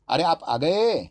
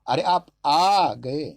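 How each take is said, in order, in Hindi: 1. बलाघात अंतिम शब्द पर है। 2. बलाघात तीसरे शब्द पर है।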